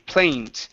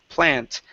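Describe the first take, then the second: First: The vowel glides like 'ay' in play. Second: The vowel is a short flat 'a'. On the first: The speaker calls it wrong. "you're saying play, plaint, with an a e sound" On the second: The speaker calls it right. "It's not a e. It's a, pla, plant"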